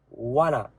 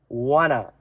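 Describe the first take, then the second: First: The two words are merged into a reduced form. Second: The two words are merged into a reduced form.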